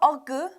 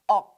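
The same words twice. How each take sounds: First: The final k is released with a puff of air. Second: The final k is held in without releasing air. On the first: The speaker calls it wrong. "not ok" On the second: The speaker calls it right. "Keep the air to yourself"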